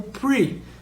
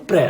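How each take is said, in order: First: The syllable is said the English way. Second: The syllable is said the Portuguese way. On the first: The speaker calls it right. "a gente pronuncia como pre" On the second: The speaker calls it wrong. "a gente não pronuncia como pré"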